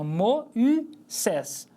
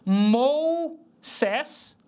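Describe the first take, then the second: First: The vowels are split into two syllables. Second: The vowels merge into one diphthong syllable. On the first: The speaker calls it right. "o trema indica que ele não faz ditongo com o ômega" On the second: The speaker calls it wrong. "Eu não vou ler isso como Mou-Sés"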